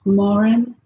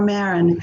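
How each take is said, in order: First: Marin as MAR-in, open "ah", questioning rise; first pronunciation. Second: Marin as MAIR-in, "eh" in the first syllable; alternative pronunciation. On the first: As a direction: say Marin as "MAH-rin", lifting at the end. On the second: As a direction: offer Marin as "MEH-rin". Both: Shown as a demonstration. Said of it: "Tell me".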